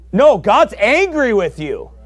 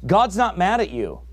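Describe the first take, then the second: First: Louder, higher, slow and pressing; forceful rebuttal. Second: Said in the usual way. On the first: Real, not acted. Preacher correcting the soft claim, loud and slow. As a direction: hammer the correction home. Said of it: "contrasts the soft view". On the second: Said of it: "Joyce Meyer wrote the book".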